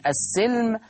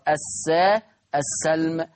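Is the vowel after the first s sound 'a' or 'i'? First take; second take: i; a. First: The s sound is followed by an 'i' vowel. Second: The s sound is followed by an 'a' vowel. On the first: "بكسر السين" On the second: "بفتح السين"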